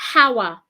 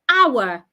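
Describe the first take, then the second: First: It starts with an h sound. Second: It starts without an h sound. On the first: The speaker calls it wrong. "Do not say hour. Don't pronounce the H" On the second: The speaker calls it right. "The H is silent"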